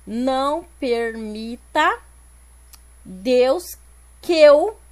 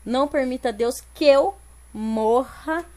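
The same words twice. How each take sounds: First: Slow, segmented "Não permita Deus que eu", loud on "que eu"; syllable counting. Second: "Não permita Deus que eu morra" flowing, "que eu" merged; natural linked reading. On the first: Teacher counting poetic syllables, slow and segmented. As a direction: count it out with pauses, "que eu" as one beat. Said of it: "Vamos ver aqui". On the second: Teacher reading the verse as spoken, "que eu" linked into one. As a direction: run "que eu" together as one little word. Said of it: "Quando eu leio". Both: Shown as a demonstration.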